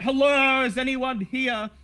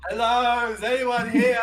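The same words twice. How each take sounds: First: Loud, high call into the shop; shout. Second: Calling out loud and high; shout. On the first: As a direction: call out to anyone in the back. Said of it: "You shout out". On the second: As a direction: call out into the empty shop. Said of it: "Big Dave shouts". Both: Acted.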